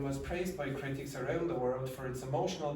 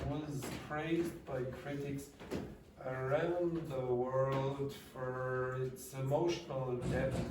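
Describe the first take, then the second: First: It is spoken very quickly. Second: It is spoken slowly. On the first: "I'm going to speak very quickly, the way I did earlier" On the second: "I'll do it slowly anyway"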